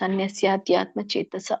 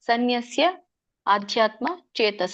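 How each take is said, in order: First: The first two words are merged into one. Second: The first two words are said apart. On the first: "ಕೂಡಿನೇ ಹೇಳಿ" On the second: "ಹಾಗೆ ಹೇಳಲಿಕ್ಕೆ ಬರ್ಲಿಲ್ಲ ಅಂದ್ರೆ"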